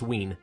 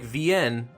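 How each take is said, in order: First: It does not sound like Vienna's start. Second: It sounds like the start of Vienna. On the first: The speaker calls it right. "apparently it's Wien" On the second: The speaker calls it wrong. "I would have assumed it would be pronounced like Vienne, like Vienna"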